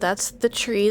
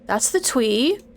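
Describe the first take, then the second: First: The word tree begins with an r sound. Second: The word tree begins with a w sound. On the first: The speaker calls it right. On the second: The speaker calls it wrong.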